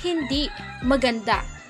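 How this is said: There is a pause after the first word. It denies the earlier claim; the thing is beautiful.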